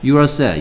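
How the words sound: The voice falls at the end. It states that the listener is sad. The speaker calls it right.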